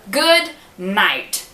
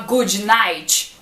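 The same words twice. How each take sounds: First: The final T is a plain English T. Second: The final T is said the Brazilian way. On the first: The speaker calls it right. "a gente fala" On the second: The speaker calls it wrong. "A gente não fala"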